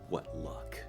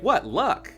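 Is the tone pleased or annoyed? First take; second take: annoyed; pleased. First: It is said in an annoyed, growling tone. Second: It is said in a pleased, positive tone.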